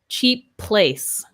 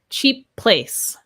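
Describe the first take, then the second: First: The two P sounds are linked together. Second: The same.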